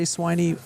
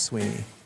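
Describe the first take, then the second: First: The first vowel sounds like 'eye'. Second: The first vowel sounds like 'ee'. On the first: This is how many people say it. The speaker calls it wrong. "I think a lot of people say Swiney" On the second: This is what the name really is. The speaker calls it right. "but I think it's Sweeney"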